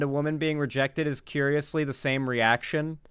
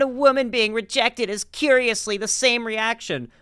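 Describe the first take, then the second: First: It is read in the speaker's ordinary voice. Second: It is read in an exaggerated put-on voice. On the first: The speaker calls it wrong. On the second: The speaker calls it right.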